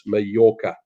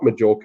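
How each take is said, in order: First: The name is said in the Spanish way. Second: The name is said in the common English way. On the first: The speaker calls it right. "I'm pronouncing it correctly because I'm reasonably good at my Spanish" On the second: The speaker calls it wrong. "a lot of people will call it Majorca, but it's not Majorca"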